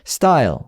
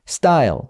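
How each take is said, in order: The two takes are said the same way.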